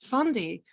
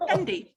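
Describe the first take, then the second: First: The first vowel sounds like 'on', French-style. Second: The first vowel sounds like 'en', English-style. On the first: "I want to say Fondi, but that sounds a little bit pretentious" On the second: "I'm going to say Fendi"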